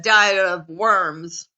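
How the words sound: Worms is said with an American English accent. "In American, you would say this as"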